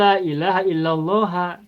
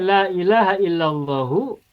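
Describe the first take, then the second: First: The last word ends with an 'a' vowel. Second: The last word ends with an 'u' vowel. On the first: The excepted noun is in the accusative case. "boleh mansub" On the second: The excepted noun is in the nominative case. "boleh marfu"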